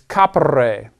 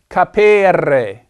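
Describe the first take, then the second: First: The middle E is said short. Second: The middle E is said long. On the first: The speaker calls it right. "This E is a short E" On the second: The speaker calls it wrong. "It's not capere"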